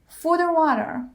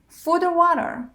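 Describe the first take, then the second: The two takes are said the same way.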